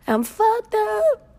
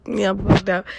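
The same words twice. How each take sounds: First: High, slow drawn-out whine, hamming it up; mock whine. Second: Said in the usual way. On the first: Host mocking herself to listeners, high drawn-out whine. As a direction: stretch it way up high like a mock cry.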